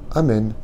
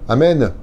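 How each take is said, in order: First: The word ends on a plain n sound. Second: The word ends with an added 'neh' sound. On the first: The speaker calls it right. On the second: The speaker calls it wrong.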